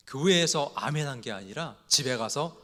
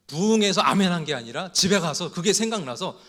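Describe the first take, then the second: First: Said in the usual way. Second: 부흥에서 punched louder and higher; stress on 부흥에서. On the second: Retold or imitated. Preacher retelling the Chungcheong punchline, stressing 부흥에서. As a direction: hit 부흥에서 hard. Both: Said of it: "조금 반응이 늦게 오기 때문에".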